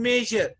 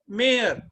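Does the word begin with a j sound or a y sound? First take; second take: j sound; y sound. First: The word begins with a j sound. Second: The word begins with a y sound. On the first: The speaker calls it right. "instead of speaking major" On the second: The speaker calls it wrong. "my children speak mayor instead of speaking major"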